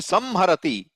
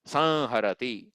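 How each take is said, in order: First: The nasal is an m made with closed lips. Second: The nasal is a nasalized sound without lip closure. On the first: The speaker calls it wrong. "my lips have to touch" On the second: The speaker calls it right. "Sa, then nasalized"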